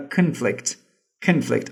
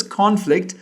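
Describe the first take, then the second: First: Conflict with the stress on the second syllable, con-FLICT; verb-style conflict. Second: Conflict with the stress on the first syllable, CON-flict; noun-style conflict. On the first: Teacher correcting the pronunciation, con-FLICT with a weak first syllable. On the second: Teacher showing her usual way of saying conflict, stressed on CON. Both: Shown as a demonstration. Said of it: "It should be pronounced as".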